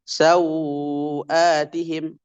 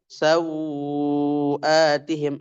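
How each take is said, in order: First: The vowel before the hamza is held two beats. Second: The vowel before the hamza is held four beats. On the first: "dua harkat" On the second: "empat harkat"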